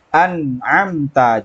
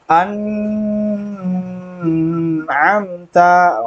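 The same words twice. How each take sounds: First: The nasal sounds are short and clear, without hum. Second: The nasal sounds are drawn out with a hum. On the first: The speaker calls it right. "Yang benar ... jelas" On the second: The speaker calls it wrong. "jangan berdengung seperti ini ... itu keliru"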